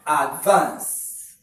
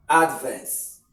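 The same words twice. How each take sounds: First: "advance" as a verb, loud open VANCE; stress on second syllable. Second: "advance" as a noun, AD punched and falling away; stress on first syllable. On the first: Teacher showing students the verb, stress on VANCE in "advance". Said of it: "as a verb". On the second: Teacher showing students the noun, stress on AD in "advance". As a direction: hit AD in "advance". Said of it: "as a noun". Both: Shown as a demonstration.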